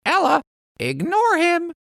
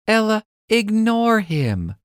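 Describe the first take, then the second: First: Very high parrot echo; parrot copying. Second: Put-on high little-girl advice; calm girl's voice. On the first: Acted. Parrot copying Lizzie, very high parrot voice. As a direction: squawk the words back like a parrot. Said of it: "Parrot repeats". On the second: Lizzie calming Ella, high girl voice. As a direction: gently tell your friend to ignore him. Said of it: "Lizzie says".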